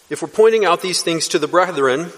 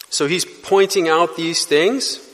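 First: Said in the usual way. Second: Pointing stretched out, slow and rising; slow, emphatic pointing out; stress on pointing. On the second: Shown as a demonstration. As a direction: lean on pointing and take it slow. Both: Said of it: "carries the idea of emphasizing".

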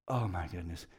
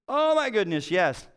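First: Much softer, lower, sinking dismay; quiet dismay. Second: Light up at the answer; excited relief. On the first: Pastor reliving hearing loss in the other ear, hushed dismay. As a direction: let it fall away, hopeless. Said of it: "And I was like". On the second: Pastor finding the diagnosis online, excited recognition. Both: Retold or imitated.

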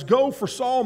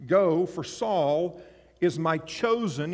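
First: Higher, rising go, quicker; brisk higher reread. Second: Slow solemn reading. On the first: Preacher rereading the Lord's words to Ananias, higher and brighter. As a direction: read the command again with lift. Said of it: "And he tells Ananias". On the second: Preacher reading the Lord's command to Ananias, slow and solemn. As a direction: lay each word down slowly. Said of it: "you might want to underline that word". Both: Shown as a demonstration.

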